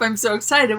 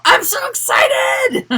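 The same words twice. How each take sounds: First: Said in the usual way. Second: High, loud, drawn-out squeal of excitement; mock excitement. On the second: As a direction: shout it like an over-the-top thrilled performer. Mock cheer, what nobody says on stage.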